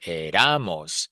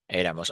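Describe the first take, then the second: First: Éramos with the stress moved to the middle syllable, e-RA-mos; misplaced stress. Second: Said in the usual way. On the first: Shown as a demonstration. Teacher showing how éramos would sound without the accent mark, misplaced stress. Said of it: "Otherwise, the sound would be". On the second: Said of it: "put a mark on the E".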